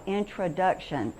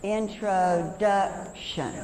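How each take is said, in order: First: Said in the usual way. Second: "Introduction" very slow, as intro, duc, tion; broken into parts. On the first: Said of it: "I want you to pull down each part". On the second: Shown as a demonstration. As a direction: pull "Introduction" apart chunk by chunk. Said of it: "Let's do it left to right".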